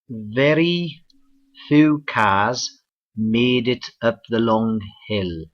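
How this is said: It is said in a Cardiff accent. "let's go across the border to Cardiff, Wales"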